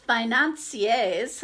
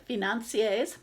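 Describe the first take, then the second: First: Financiers said as "ai-nan-see-ays", the first sound dropped; misread word. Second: Financiers said "fee-nan-see-ays" with the F; corrected word. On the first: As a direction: stumble over financiers without the F. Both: Shown as a demonstration. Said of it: "I guess you say".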